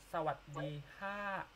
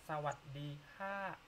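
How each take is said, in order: The two takes are said the same way.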